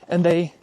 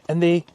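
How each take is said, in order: No difference in how they are said.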